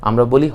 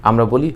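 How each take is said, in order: Both takes have the same delivery.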